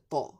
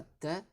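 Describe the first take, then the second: First: Ta avec un t emphatique et un a grave; ta dit épais et appuyé, comme le ṭa; bonne prononciation. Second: Ta avec un t simple et un a clair, la forme fautive; ta dit léger, à éviter; mauvaise prononciation. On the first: (ta prononcé grave, comme modèle) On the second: (ta prononcé clair, sans emphase) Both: Shown as a demonstration. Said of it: "c'est pas ta, mais ta".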